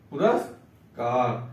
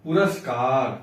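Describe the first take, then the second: First: पुरस्कार drawn out syllable by syllable; slow teacher's model reading of पुरस्कार; slow model word. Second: Said in the usual way. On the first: Shown as a demonstration. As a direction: say पुरस्कार very slowly, each syllable clear. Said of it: "पुरस्कार आधा सा होता है". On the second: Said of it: "पुरस्कार में कोई पूरा सा लिख".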